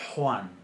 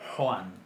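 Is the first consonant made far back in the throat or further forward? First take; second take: back; back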